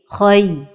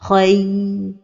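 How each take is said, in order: First: The syllable is said plainly at normal length. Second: The vowel glide is held for too long. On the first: The speaker calls it right. "la prononciation correcte" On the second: The speaker calls it wrong. "donner beaucoup de temps à la lettre ligne"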